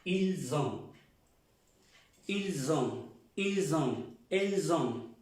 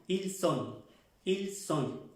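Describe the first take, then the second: First: Ils ont with the S buzzing like a Z; Z liaison drill. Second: Ils sont with a sharp clear S, higher; clear S drill. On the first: Teacher drilling the class, ils ont with a Z link. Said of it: "como una Z". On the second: Teacher contrasting verbs, ils sont with a sharp S. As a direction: say ils sont with a crisp hissed S. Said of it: "La S se pronuncia bien". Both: Shown as a demonstration.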